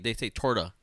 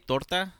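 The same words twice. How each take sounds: First: Torta is pronounced with an English accent. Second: Torta is pronounced with a Spanish accent. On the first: This is how the chain's ad says it. The speaker calls it wrong. "they say torta" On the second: This is how the word should be said. The speaker calls it right. "They don't even say torta"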